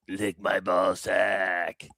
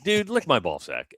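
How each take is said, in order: First: It is said in a creepy, sinister tone. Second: It is said in a casual, friendly tone.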